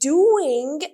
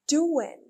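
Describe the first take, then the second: First: The word ends with a clear g sound. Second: The word ends without any g sound. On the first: The speaker calls it wrong. "instead of saying doing" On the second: The speaker calls it right. "remove the G and say doing"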